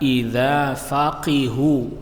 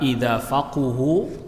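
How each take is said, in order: First: The vowel after the q is i. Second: The vowel after the q is u. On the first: "dibaca kasrah qafnya" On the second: "dengan dibaca dhammah qafnya"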